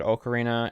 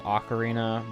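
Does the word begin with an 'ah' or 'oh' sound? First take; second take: oh; ah. First: The first vowel sounds like 'oh'. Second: The first vowel sounds like 'ah'. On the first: This is how the speaker has always said it. The speaker calls it right. "I always said ocarina" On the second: This is the more common way people say it. The speaker calls it wrong. "the more popular pronunciation is ocarina"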